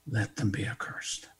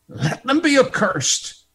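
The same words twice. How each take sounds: First: Hushed whisper. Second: Higher, ringing declaration; proclaimed curse. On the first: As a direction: whisper the curse, unvoiced and low. Repeats curse in hushed tone. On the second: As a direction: announce the curse to the crowd. First, proclaimed take of curse. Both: Acted.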